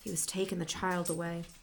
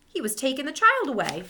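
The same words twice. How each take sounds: First: It is read in a dull, exhausted voice. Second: It is read in an ordinary, unmarked voice.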